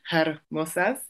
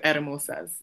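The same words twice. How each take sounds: First: The word starts with an audible H sound. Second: The word starts without an H sound. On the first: The speaker calls it wrong. "instead of hermosas" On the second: The speaker calls it right. "H is usually silent. So you just go hermosas"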